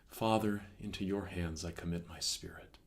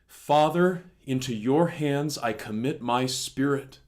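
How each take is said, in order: First: It is spoken softly and slowly. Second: It is shouted in a loud voice. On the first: The suffering is over and the soul peacefully departs. The speaker calls it wrong. "rather softly, contemplatively spoken" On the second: It is a forceful, triumphant declaration. The speaker calls it right. "Jesus shouted those words? With a great voice"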